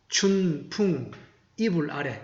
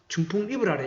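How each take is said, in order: First: 춘풍 is drawn out slowly. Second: 춘풍 is said at normal quick pace.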